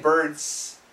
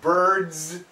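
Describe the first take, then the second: First: The word ends with a hissing s sound. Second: The word ends with a buzzing z sound. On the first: The speaker calls it wrong. "we don't say birds" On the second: The speaker calls it right. "all of these S's sound like the Z"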